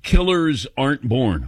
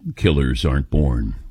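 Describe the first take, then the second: First: It is said in a normal speaking voice. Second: It is said in a dramatic announcer voice.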